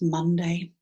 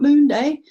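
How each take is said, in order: First: The first syllable has a short 'uh' vowel. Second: The first syllable has a long 'oo' vowel. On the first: This is the modern form. The speaker calls it right. "it's Monday" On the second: This is the old form, named after the moon. The speaker calls it wrong. "It's not Moon Day"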